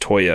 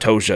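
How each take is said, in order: First: The middle consonant sounds like a 'y'. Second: The middle consonant sounds like a 'j' or 'sh'. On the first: The speaker calls it right. "it's Toya" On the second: The speaker calls it wrong. "it's not Tosha"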